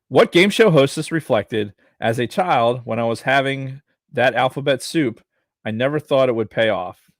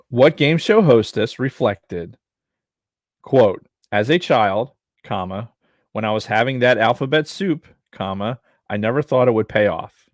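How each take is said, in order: First: It is read at a normal pace. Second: It is read slowly and deliberately.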